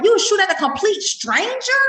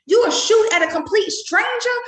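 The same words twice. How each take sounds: First: First take, building. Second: Shouted repeat. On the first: Retold or imitated. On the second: Real, not acted.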